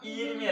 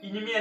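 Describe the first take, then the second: First: The first vowel is a long 'ee' sound. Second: The first vowel is a short 'i' sound. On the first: "ഈനിമി അല്ല" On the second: "ഇനിമി അല്ല"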